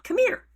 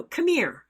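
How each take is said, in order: First: "Come here." pitched high and louder, rising at the end; beckoning call. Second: High, louder "come here" beckon; beckoning call. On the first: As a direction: beckon him over, lifting the last word. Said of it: "you take your pointy finger and you". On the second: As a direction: call him over with the finger gesture. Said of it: "I did the thing where you do". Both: Shown as a demonstration.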